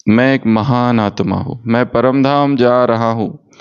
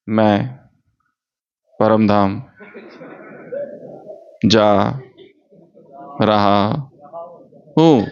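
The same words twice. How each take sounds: First: A teacher showing good commentary pacing, smooth line; one flowing line. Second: Choppy, long pauses between each word. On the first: Teacher demonstrates correct commentary pace, said in one flow. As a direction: say the line through smoothly, then pause. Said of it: "एक line बोलो, फिर रुको". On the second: Teacher mocks bad commentary, halting word by word. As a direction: chop it up one word at a time. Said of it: "ऐसा नहीं करना है commentary". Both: Shown as a demonstration.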